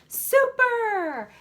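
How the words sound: It is said with excited emotion. "they're going super because they're excited"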